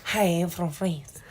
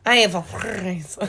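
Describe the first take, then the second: First: Soft, slow, badly faked French accent; attempted French accent. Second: Slow fake French with a purred R in "France"; purring French accent. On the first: Unsure how to imitate French, fake French accent. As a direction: try a hesitant French accent, slowly. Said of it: "how to imitate French". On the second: Trying to imitate French for a co-host, purring French accent. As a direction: roll "France" like a cat purring, mock French. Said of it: "Sounds like a cat purring". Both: Shown as a demonstration.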